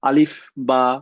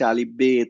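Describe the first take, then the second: First: The second letter name is said 'ba'. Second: The second letter name is said 'be'. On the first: This is how it is said now. "এখন যেমন বা বলে" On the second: This is how it was said in the past. "তখন হচ্ছে আলিফ বে তে সে"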